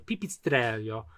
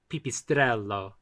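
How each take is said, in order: First: It is said with an Italian accent. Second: It is said with an American accent. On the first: "as it would be pronounced in Italian" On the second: "the most bastardized version that you can do"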